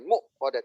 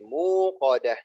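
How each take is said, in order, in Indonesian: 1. Hentian glotis mengikuti suku kata pertama. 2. Vokal panjang oo mengikuti, tanpa hentian. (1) "bukan bukan hamzah, bukan mu kodah" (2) "tapi pakai wawu"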